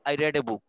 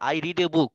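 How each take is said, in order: First: The word read rhymes with bed. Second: The word read rhymes with need. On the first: The reading happened in the past. "তুমি past টেন্সে বলছো" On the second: The reading happens regularly now. "তুমি একটা বই পড়ো"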